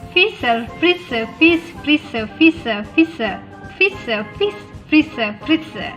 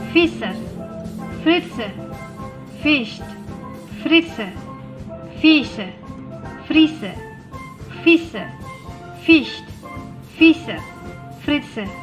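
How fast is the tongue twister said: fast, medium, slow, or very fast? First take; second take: very fast; medium. First: It is said at a very fast pace. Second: It is said at a somewhat quicker pace. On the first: "Lebih cepat lagi" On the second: "Lebih cepat sedikit"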